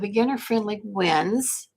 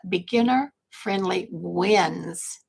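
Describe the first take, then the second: First: The phrase is said quickly. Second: The phrase is said more slowly. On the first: The speaker calls it wrong. "did I say that too fast?" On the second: The speaker calls it right. "Let's back that up"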